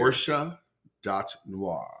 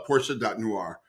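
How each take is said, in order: First: It is said slowly. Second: It is said at normal speed.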